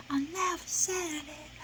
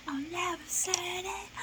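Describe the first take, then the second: First: "I never said it" sung aloud and tearfully; tearful singing. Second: "I never said it" whispered high through tears; whispered, crying. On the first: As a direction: sing "I never said it" with a wobble. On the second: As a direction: breathe "I never said it" almost silently. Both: Real, not acted. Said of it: "This was really making me cry".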